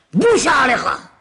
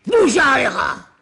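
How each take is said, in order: First: Said in the usual way. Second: Slow, drawn-out yell; slow shouted repeat; mock shout. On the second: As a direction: bellow it like an angry father-in-law. Laban's angry phrase, slow shout.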